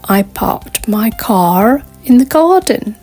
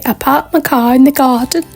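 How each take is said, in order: First: It is said in an American accent. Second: It is said in a British accent. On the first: "a person with an American accent might say something like" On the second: "a British person will probably say"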